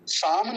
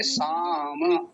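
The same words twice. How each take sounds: First: साम ending in a dead consonant; the mistaken साम, final म with no vowel; साम clipped short at the म; wrong pronunciation. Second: साम with the final vowel sounded, slowly; the right साम, stretched out; slow साम with a full last syllable; correct pronunciation. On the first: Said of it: "साम नहीं बोलेंगे". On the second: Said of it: "अभी क्या बोलेंगे". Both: Shown as a demonstration.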